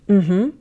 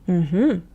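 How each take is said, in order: Both takes have the same delivery.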